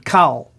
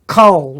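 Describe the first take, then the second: First: The vowel is pronounced as something other than o. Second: The vowel is pronounced as a short o. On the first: The speaker calls it wrong. "rather than" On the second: The speaker calls it right. "it is a short O when it is in an unaccented syllable"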